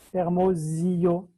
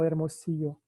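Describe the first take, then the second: First: The middle consonant is a buzzing z sound. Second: The middle consonant is a hissing s sound. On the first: This is how a French speaker would say it. "un francés que no sabe español diría" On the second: This is the Spanish way of saying it. "y no"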